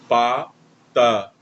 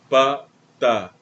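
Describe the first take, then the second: Both takes have the same delivery.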